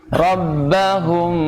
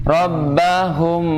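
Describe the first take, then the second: The two takes are said the same way.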